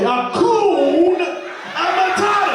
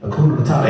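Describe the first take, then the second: First: It is said slowly. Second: It is said at normal speed.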